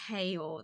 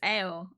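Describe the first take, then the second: First: The word starts with a clear h sound. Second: The word starts without any h sound. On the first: The speaker calls it wrong. "that sounds so weird" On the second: The speaker calls it right. "It's ale"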